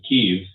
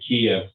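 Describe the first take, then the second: First: The name is pronounced the Ukrainian way. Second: The name is pronounced the Russian way.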